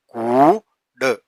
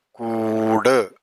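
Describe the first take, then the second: First: കൂട് stretched very slowly; drawn out. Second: Slow repeat. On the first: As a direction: hold every sound of കൂട്. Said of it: "drawn-out reading demo". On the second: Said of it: "slow repeat". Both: Shown as a demonstration.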